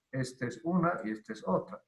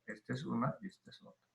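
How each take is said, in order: First: Said in the usual way. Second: "Esta es una y esta es otra" repeated much softer and fast; quiet rapid echo of the point; soft quick repeat. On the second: Shown as a demonstration. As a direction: murmur it again quickly as an afterthought.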